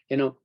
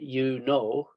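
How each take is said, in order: First: It is said quickly and quietly. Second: It is said slowly and loudly. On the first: The speaker calls it right. "we might say" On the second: The speaker calls it wrong. "we don't say"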